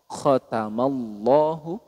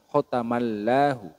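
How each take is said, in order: First: The L in Allahu sounds thick and heavy. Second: The L in Allahu sounds thin and light. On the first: The speaker calls it right. "dibaca tebal bunyinya" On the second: The speaker calls it wrong.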